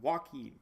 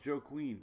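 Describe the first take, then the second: First: The name starts with a wah sound, wah-KEEN. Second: The name sounds like two words, Joe Queen. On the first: The speaker calls it right. "Not Joe Queen" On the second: The speaker calls it wrong. "I remember butchering the name"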